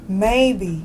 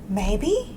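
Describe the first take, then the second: First: The voice falls at the end, like a statement. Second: The voice rises at the end, like a question. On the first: It is given as an answer. "Stillwater said the same word as a sentence" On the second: The other speaker wonders why that answer was given. "Michael asked it as a question"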